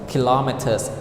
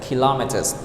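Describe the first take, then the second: Both takes have the same delivery.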